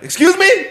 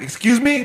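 First: High, rising-pitched demand for attention; indignant excuse me. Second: Milder, higher-pitched call to the server; retold excuse me. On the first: Acted. Customer planning to flag down a server, indignant. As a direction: call out sharply to a passing server. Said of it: "Next time this bitch comes". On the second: Customer retelling how he stopped the passing server, mildly insistent. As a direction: lightly replay flagging someone down. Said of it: "So fucking she passed by".

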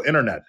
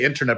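First: Internet said as 'innernet'; casual internet without the T; dropped T. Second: Internet with its T pronounced; enunciated internet; sounded T. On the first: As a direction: drop the T in internet. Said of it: "'cause it's inter". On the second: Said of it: "trying to just come across". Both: Shown as a demonstration.

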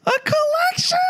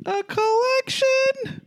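First: Extremely high, piercing falsetto question; absurdly high mock audition voice; even higher voice. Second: Very high, drawn-out squeal of a question; mock operatic high pitch; silly high voice. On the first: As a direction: push it to the very top of the range. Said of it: "A little higher, please". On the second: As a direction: stretch it out in falsetto. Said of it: "you speak everything in that voice".

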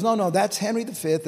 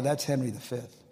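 First: Higher, louder emphatic quote; insistent correction. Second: Said in the usual way. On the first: Retold or imitated. Friend corrects the preacher on his quote, emphatic insistence. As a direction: correct him firmly, pitch and volume raised.

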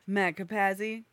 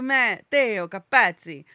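First: Said in the usual way. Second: Loud Italian Matteo Capazzi, "ts" in the surname; emphatic Italian-accented full name; exact Italian. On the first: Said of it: "That's Americanized". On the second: Shown as a demonstration. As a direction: copy the Italian accent with gusto. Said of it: "be exact to Italian".

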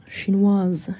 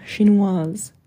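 First: Muttered French word, kept low; French, lower tones. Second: French word repeated with a questioning rise. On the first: Villagers whispering among themselves, low French aside. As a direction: say it in French under the breath. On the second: Villagers repeating the word to each other, French with a rise. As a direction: echo it in French, lifting at the end. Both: A narrator's reading. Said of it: "Then, in lower tones".

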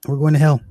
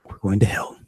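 First: Higher, mock panic on hell; panicked. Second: Said in the usual way. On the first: Comic at the donkey show, mock panic. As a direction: act out the dread of damnation. Repeated panicked line, build.

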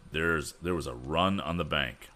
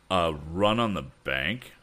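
First: Said in the usual way. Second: A run on the bank rising in a startled question, a bit louder; surprised repeat. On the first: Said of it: "went on Mister Pendergast". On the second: A narrator's reading. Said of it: "repeated Mister Swift".

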